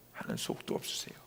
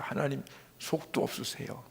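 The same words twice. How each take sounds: First: Low, quick whisper to God; barely audible retold prayer. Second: Soft, moved murmur to God; retold prayer, softly voiced; hushed prayer. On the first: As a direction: let the voice drop away into a whisper. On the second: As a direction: say it quietly in prayer. Retold prayer, moved by God's love.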